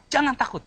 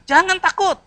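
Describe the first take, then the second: First: Said in the usual way. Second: High, loud call to the congregation. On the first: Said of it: "J yang pertama". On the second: Shown as a demonstration. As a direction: proclaim it for all to repeat. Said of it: "Katakan kiri kanan". (seruan keras kepada jemaat)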